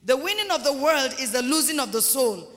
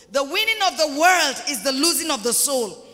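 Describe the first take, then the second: First: Said in the usual way. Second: "The winning of the world" repeated loudly, with full weight; emphatic preaching. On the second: Real, not acted. Preacher repeats his warning to the church, emphatic. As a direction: hammer "The winning of the world" home.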